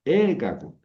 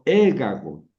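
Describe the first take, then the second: First: The stress falls on the first syllable. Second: The stress falls on the first syllable.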